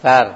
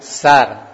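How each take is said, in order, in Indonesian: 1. Kata ini dimulai dengan bunyi 'th' yang lembut. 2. Kata ini dimulai dengan bunyi 's' desis yang biasa. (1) "tapi pakainya sa" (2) "bukan sar, bukan sin pakainya"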